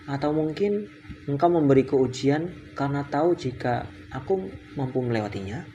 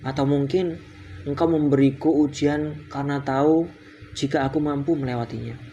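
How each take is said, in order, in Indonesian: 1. Suara naik di akhir, seperti kalimat tanya. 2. Suara turun di akhir, seperti kalimat pernyataan. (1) "ini tanda tanya ya" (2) "cara bacanya salah"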